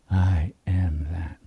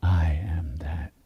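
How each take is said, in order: First: Said in the usual way. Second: Slow, breathy whisper of the mantra; whispered affirmation. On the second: Shown as a demonstration. Teacher whispers the affirmation to the group. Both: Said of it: "We do it with the awareness".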